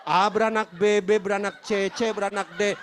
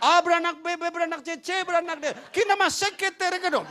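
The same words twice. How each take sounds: First: Loud genealogy recitation at usual pitch; membaca silsilah. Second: High, loud mock tongues; bahasa roh tiruan. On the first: Retold or imitated. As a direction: belt out a repetitive list of begats. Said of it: "Saya capek bacain orang beranak". (membaca silsilah dengan lantang) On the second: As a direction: turn the genealogy into fervent pretend tongues. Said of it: "bahasa roh saya baca Alkitab". (bahasa roh tiruan, nyaring dan tinggi)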